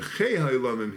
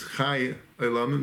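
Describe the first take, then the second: First: The first word sounds like 'chei'. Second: The first word sounds like 'chai'. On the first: The one who gives life to all. The speaker calls it right. "but Chei HaYolamim, he gives the life to all the Briah" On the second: The one who lives forever. The speaker calls it wrong. "He's not that he's Chei HaYolamim, that he lives forever and ever"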